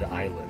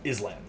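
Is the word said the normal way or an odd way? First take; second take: normal; odd. First: The word is said the normal way. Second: The word is said in an odd way. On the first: The speaker calls it right. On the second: The speaker calls it wrong.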